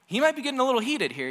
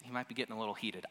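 First: Higher, louder and fast, heating up; a preacher's mock heat. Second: Said in the usual way. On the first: Shown as a demonstration. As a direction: let the heat rise in the voice.

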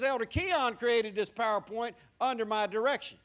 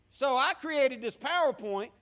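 First: Keon hit hard, credit shifted; "Elder Keon created", weight on Keon; stress on Keon. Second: I punched, the one who made it; "So I created this PowerPoint", weight on I; stress on I. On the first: Pastor hands credit to the sound booth elder, stress on Keon. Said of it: "but for our purposes". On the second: Pastor claims the slides as his own, stress on I. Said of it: "for our purposes, Elder Keon created". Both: Shown as a demonstration.

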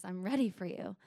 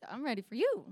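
First: Lightly lowered, softer suitor voice; a hint of a seductive man; lion man's line. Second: Lightly raised answer, mildly eager; her own eager reply. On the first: Lion man greeting her at the door, lightly seductive. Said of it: "He says". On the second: Retold or imitated. Retelling her reply to lion man, mildly eager. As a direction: answer him with a touch of eagerness. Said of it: "I was like".

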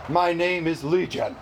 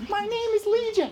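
First: Slightly lowered, plain-spoken demon; low demon voice. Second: Very high, squeaky little demon. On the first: Preacher voicing the unclean spirit naming itself, low. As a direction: answer as a demon on the low side. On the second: Preacher joking as the unclean spirit, high-pitched. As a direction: pitch it way up for a comic airy demon. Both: Acted. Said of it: "They're either high or low".

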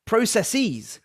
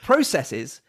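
First: Processes ending in a long -eez; American process-eez. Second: Processes ending in -siz; British processes. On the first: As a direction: stretch the end of processes to -seez. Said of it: "the second version is American". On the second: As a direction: say Processes with a short last vowel, pro-sess-iz. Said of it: "the first version is correct". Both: Shown as a demonstration.

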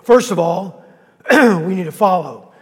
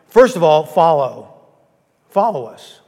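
First: Coughing through it. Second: Clear and strong. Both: Real, not acted. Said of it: "Is that better?".

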